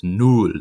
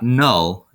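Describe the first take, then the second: First: "null" said with a rounded oo vowel, "nool"; proper German "null"; correct German vowel. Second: "null" said with an English uh vowel, like "nul"; wrong English vowel. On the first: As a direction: give the right "null" with a clear oo. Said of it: "it's null. The U is the vowel here". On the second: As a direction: show the wrong "null" rhyming with "dull". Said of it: "Notice it's not null". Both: Shown as a demonstration.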